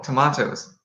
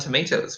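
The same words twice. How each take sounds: First: The word is said with a British accent. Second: The word is said with an American accent. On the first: The speaker calls it right. "Oh, God, no" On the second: The speaker calls it wrong. "We are picking up some bad pronunciations"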